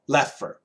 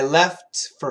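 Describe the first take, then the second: First: The T sound is dropped entirely. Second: The T sound is clearly pronounced.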